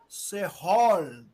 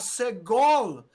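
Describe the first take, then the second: First: The middle consonant is a throaty r-sound. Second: The middle consonant is a hard g. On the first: "o som de dois R's" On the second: "ao invés de você falar segol"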